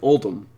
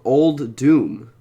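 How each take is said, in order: First: The second syllable sounds like dum. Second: The second syllable sounds like doom. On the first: The speaker calls it wrong. "even though it looks like" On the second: The speaker calls it right. "the way to say this set properly"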